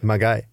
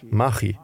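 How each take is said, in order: First: The middle consonant is a hard g sound. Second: The middle consonant is a soft ch sound. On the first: The speaker calls it wrong. "Und nicht Magai" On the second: The speaker calls it right. "Mir wurde gesagt, das hieße Machi"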